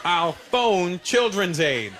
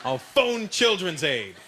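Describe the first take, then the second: First: Slow, spaced-out threat; slow deliberate bluff. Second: Slow, deliberate threat; slow bluff threat. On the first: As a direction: spell it out slowly to dad. Kid repeats bluff. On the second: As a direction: say it slowly as a bluff. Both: Retold or imitated.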